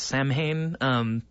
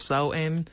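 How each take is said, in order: First: It is said with an English-style pronunciation. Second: It is said with a Gaelic-style pronunciation. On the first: "anglicized pronounced" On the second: "properly pronounced"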